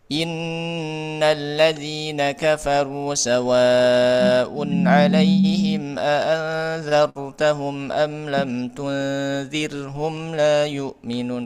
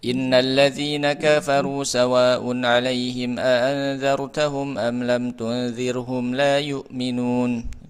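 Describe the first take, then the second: First: It is recited moderately with longer nasal holds. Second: It is recited fast with short nasal holds. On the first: "begitu juga dengan tadwir misalkan" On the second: "Itu kan hadar ya. Pasti gunnahnya tidak eh, banyak, tidak panjang"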